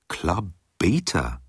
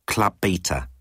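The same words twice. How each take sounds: First: A slow, doubtful repeat of "Beta", falling; puzzled slow echo. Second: Said in the usual way. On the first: A narrator's reading. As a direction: let "Club Beta" sink in slowly, bewildered. Ford repeats, puzzled question.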